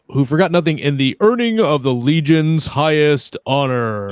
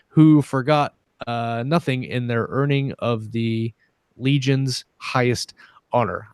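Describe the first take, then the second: First: It is read in a dramatic announcer voice. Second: It is read in a plain, ordinary voice.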